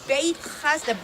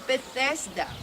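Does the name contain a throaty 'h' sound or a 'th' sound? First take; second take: throaty h; th sound. First: It has a throaty h sound after 'Beit'. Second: It has a 'th' sound and no throaty h.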